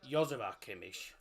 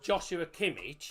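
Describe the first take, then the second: First: Joshua begins with a Y sound. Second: Joshua begins with a J sound. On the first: This is how the name is said in Germany. "in Germany it's pronounced uh" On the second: This is how people commonly say the name. "as people call him"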